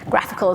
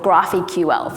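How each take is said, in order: First: It sounds like the ordinary word graphical. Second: The ending is spelled out as separate letters. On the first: The speaker calls it right. "graphical is a much, much better way to pronounce that" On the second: The speaker calls it wrong. "which I called GraphQL for my entire time"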